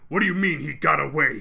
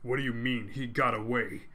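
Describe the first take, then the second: First: It is shouted with strong force. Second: It is said with little force.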